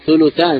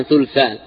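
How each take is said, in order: First: "ثلثان" as thuluthan, with u after the l; damma on lam. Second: "ثلثان" as thulthan, no vowel after the l; sukun on lam. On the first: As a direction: put a short u on the lam of "ثلثان". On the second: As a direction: run l straight into th in "ثلثان". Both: Shown as a demonstration. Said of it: "ضم اللام وسكونها".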